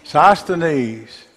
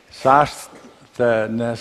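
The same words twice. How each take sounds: First: "Sosthenes" said SOS-teh-neez, higher and louder; "Sosthenes" repeated firmly as SOS-teh-neez after correction; corrected pronunciation. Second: "Sosthenes" tried as SOS-teh-nuh, final s dropped; "Sosthenes" attempted haltingly as SOS-teh-nuh; unsure first try. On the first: Teacher repeats the name the class corrected, firm. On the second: Teacher tests a hard name on the class, unsure try. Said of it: "is that close enough?". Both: Shown as a demonstration.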